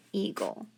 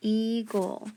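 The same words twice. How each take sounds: First: Said in the usual way. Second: "Eagle" split as ee-gul, long E; sounded out by syllable. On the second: Shown as a demonstration. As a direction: stretch EAGLE into two deliberate beats. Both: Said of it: "it's a long E".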